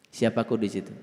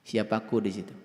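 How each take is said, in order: No difference in how they are said.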